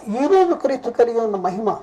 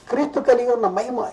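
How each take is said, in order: First: ఈరోజు lifted at the front of the phrase; stress on ఈరోజు. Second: Said in the usual way. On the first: Real, not acted. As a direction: put the emphasis on ఈరోజు, then ease off. Restates phrase, stressing today.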